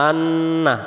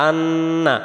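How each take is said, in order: The two takes are said the same way.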